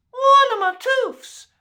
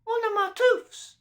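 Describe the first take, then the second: First: Put-on high, loud baby squeal; the baby shrieks it with glee; loud gurgling baby. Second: Put-on a baby cooing over his tooth; gurgling baby. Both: A narrator's reading. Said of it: "gurgled Baby Rottentot".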